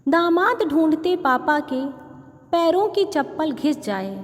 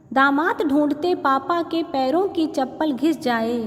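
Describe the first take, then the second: No difference in how they are said.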